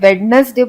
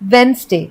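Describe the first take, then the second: First: A d sound is heard after the first vowel. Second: No d sound is heard after the first vowel. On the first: The speaker calls it wrong. "ये सबसे common mistake जो लोग करते हैं" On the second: The speaker calls it right. "Actually में इसे हम बोलते हैं वेंसडे"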